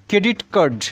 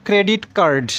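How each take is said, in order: Both takes have the same delivery.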